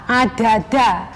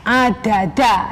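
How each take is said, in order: The two takes are said the same way.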